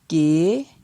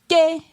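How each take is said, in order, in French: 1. La syllabe est prononcée sur un ton montant. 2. La syllabe est prononcée sur un ton haut. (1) "Ton montant" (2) "Ton haut"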